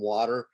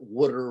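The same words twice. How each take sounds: First: The first vowel is the usual 'wah' sound. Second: The first vowel sounds like 'wood', giving 'wooder'. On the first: This is how others say it. "rather than water" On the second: This is how the speaker's community says it. "we've always called it water"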